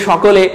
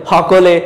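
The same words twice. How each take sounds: First: Said in the usual way. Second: "হকলে" with an h in place of the first sh; Chittagong pronunciation. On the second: Shown as a demonstration. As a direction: open "হকলে" on a breathed h, Chittagong style. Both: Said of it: "চট্টগ্রামরা কি বলে?".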